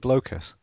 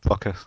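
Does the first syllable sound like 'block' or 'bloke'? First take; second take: bloke; block. First: The first syllable sounds like 'bloke'. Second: The first syllable sounds like 'block'. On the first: The speaker calls it wrong. "It's never going to be Blokus" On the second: The speaker calls it right. "It's block. Why? Because it's got blocks"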